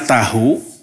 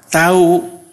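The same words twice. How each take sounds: First: The h sound is pronounced in the middle. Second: The h sound is dropped in the middle. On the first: "Ditulisnya mah tahu" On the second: "diucapkannya tahu"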